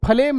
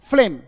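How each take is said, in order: First: फ्लेम split as "fa-lem"; extra vowel between F and L in फ्लेम; wrong pronunciation demo. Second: फ्लेम as one quick, loud syllable; F straight into L in फ्लेम; correct pronunciation demo. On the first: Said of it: "फ्लेम नहीं". (फ्लेम को "फलेम" बोलें) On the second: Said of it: "यहाँ पे एफ पहला है". (फ्लेम में फ आधा, ज़ोर से) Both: Shown as a demonstration.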